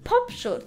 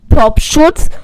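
First: The P sound has no strong breath pop. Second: The P sound has a strong breath pop. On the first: The speaker calls it right. "Das ist der Fame Studio CM1 mit Popschutz" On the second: The speaker calls it wrong. "Und das ist das Studio CM1 ohne Popschutz"

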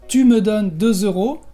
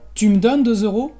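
First: Each word is said carefully in full. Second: It is said fast with the e of me dropped. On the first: "En lugar de decir" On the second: "Vamos a decir rápido"

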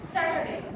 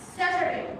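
Both takes have the same delivery.

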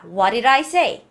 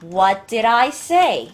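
First: The t and d merge and are not released. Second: The t and d are both clearly pronounced.

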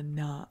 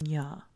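First: The syllable is a plain na sound. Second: The syllable is a palatal nya sound. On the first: The speaker calls it wrong. "it's not a na" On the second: The speaker calls it right. "it's nya"

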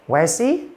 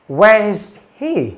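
First: It is said quickly with the h dropped. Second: It is said slowly with the h heard. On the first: "Nhưng mà đọc nhanh hơn" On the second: "chúng ta đọc chậm là gì?"

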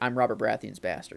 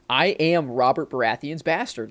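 First: It is said with shame, like a confession. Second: It is said proudly, like something cool.

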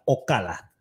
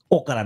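First: The stress is on the second syllable. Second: The stress is on the first syllable. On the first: The speaker calls it right. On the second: The speaker calls it wrong. "no tienen acento en la primera sílaba"

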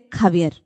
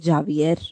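First: It starts with a harsh k-like sound. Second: It starts with an English j sound. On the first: The speaker calls it right. "We're going to say Javier" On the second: The speaker calls it wrong. "We're not going to say Javier"

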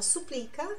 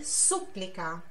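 First: The stress is on the second syllable. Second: The stress is on the first syllable. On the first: "A gente fala supplica" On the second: "a sílaba tônica, que tá lá no começo"

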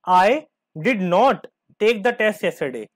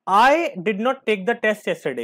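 First: The stress falls on the words did not. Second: The stress falls on the word I. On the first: The test simply was not taken. "यहां पे did not पे focus है" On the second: Someone else took the test. "यहाँ पे मैं आई पे focus कर रहा हूं।"

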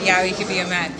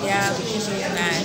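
First: It is said without hesitation. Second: It is said with hesitation.

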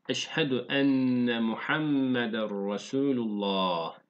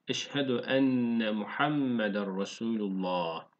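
Both takes have the same delivery.

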